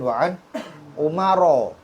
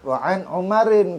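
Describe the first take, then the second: First: The last word ends in a plain 'o' vowel. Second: The last word ends in an 'in' sound. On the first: This is the reading used in Banjar. The speaker calls it wrong. "di Banjar itu dibacanya" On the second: The meter needs the extra syllable. The speaker calls it right. "Tetap wa'an Umarin"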